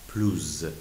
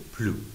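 First: The word ends with a z sound. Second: The word ends on the vowel, no final consonant. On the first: A vowel-initial adjective follows in a comparison. "ما لیزون میکنیم و پلوز خونده میشه" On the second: It is used in a negative sense. "در حالت منفی اس خونده نمیشه"

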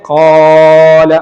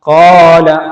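First: The vowel is stretched far beyond two counts. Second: The vowel is held for two counts. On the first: The speaker calls it wrong. "അല്ലാതെ കുറേ ഖാല അങ്ങനെ നീട്ടണ്ട" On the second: The speaker calls it right. "ഇവിടെ 2 ഹർക്കത്ത് ഉച്ചരിക്കാനുള്ള ഒരു സമയം മാത്രം നീട്ടിയാൽ മതി"

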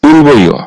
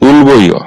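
First: The middle consonant is a b sound. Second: The same.

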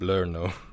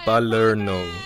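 First: The syllables are slurred together into fewer sounds. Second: The syllables are said clearly and separately. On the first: The speaker calls it wrong. "you kind of slurred the syllables together" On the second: The speaker calls it right. "It's Palerno"

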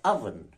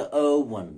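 First: Oven is said not rhyming with cloven. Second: Oven is said rhyming with cloven. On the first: The speaker calls it right. "No, it's cloven and oven" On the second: The speaker calls it wrong. "So it's not cloven, oven"

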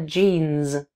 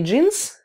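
First: The final sound is a voiced z. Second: The final sound is a voiceless s. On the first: The speaker calls it right. "а джинс" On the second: The speaker calls it wrong. "З не оглушайте, не джинс"

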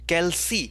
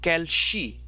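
First: The consonant after 'cal' is an S sound. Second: The consonant after 'cal' is an SH sound. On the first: The speaker calls it right. "there is no SH sound in this. There is no SH. It's C" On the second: The speaker calls it wrong. "not calci"

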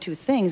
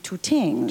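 First: The word begins with a TH sound. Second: The word begins with a T sound.

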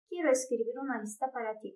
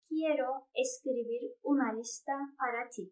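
First: The sentence is read quickly. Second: The sentence is read slowly. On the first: The speaker calls it wrong. "hızlı bir şekilde söylemene de gerek yok" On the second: The speaker calls it right. "Yavaş yavaş tane tane okumaya başladın"

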